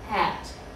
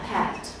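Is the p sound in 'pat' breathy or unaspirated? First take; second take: unaspirated; breathy. First: The p has almost no puff of air. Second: The p has a strong puff of air. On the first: "try and swallow that air" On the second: "Do you feel the air that's produced"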